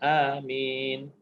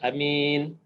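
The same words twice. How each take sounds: First: The first vowel is held long. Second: The first vowel is held short. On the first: It asks God to grant the request. "A tu kalau ikut bacaan kita dua harakat" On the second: It means a trustworthy person. "A tu pendek. Satu harakat je"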